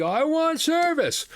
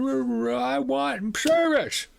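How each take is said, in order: First: High, drawn-out whining demand; nasty businessman. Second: High, slow, far-off whine; nasty businessman. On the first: Rude businessman insists again to the manager, high whine. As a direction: insist like a spoiled child. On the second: Rude businessman whines at the manager, high and slow. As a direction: demand it like a spoiled child. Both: Retold or imitated. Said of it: "The nasty Quebecois businessman".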